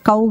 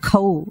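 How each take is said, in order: First: The consonant is said without aspiration. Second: The consonant is said with a breathy aspiration. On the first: The speaker calls it wrong. "కౌ కాదు" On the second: The speaker calls it right. "రెండో ఖా"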